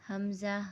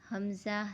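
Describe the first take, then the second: Both takes have the same delivery.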